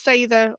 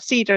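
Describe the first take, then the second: First: The word does not sound like English cedar. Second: The word sounds like the English word cedar. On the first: The speaker calls it right. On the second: The speaker calls it wrong.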